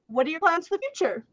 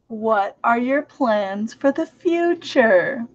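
First: It is said at normal speed. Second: It is said slowly and deliberately.

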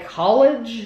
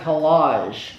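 First: The word sounds like 'college'. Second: The word sounds like 'collage'. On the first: This is the speaker's own way of reading the name. "is how we would pronounce that" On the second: This is how the makers may say the name. "Maybe they are saying collage"

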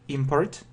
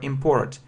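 First: The stress falls on the first syllable. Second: The stress falls on the second syllable. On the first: It is a noun: goods brought in from abroad. "The stress is on the first syllable, yeah, if it's a noun" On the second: It is a verb: to bring goods in from abroad. "the stress is on the second syllable if it's a verb"

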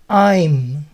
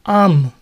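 First: The vowel is a full 'eye' diphthong. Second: The vowel is reduced to a short 'a' sound. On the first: "estas dos palabras se pronuncian I'm" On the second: "hay otra forma popular de pronunciarlo"

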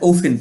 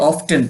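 First: The t sound in the middle is silent. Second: The t sound in the middle is pronounced. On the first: "আমরা ওফেন পড়বো" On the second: "এটা উচ্চারণ অনেকে অফটেন পড়ে"

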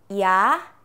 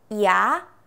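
The two takes are said the same way.

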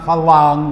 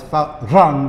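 First: The middle consonant is an L sound. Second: The middle consonant is a rolled R. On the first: The speaker calls it wrong. "it's not phalang with an L" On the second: The speaker calls it right. "It's phalang with a rolled R"

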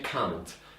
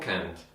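First: It is said with a British accent. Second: It is said with an American accent. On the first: "Brytyjczycy raczej can't" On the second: "Amerykanie mówią can't"

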